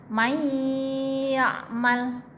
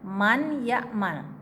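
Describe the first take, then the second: First: The n sound disappears and merges into ya. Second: The n sound is clearly pronounced before ya. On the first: This is how it is read aloud. "tapi dibaca may ya'mal, nun matinya hilang, melebur ke huruf ya" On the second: This is how it is written. "kalau tulisannya man ya'mal"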